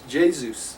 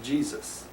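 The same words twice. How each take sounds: First: The name is said with a Spanish pronunciation. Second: The name is said with an English pronunciation. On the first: "if you think of it in in Spanish" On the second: "instead of"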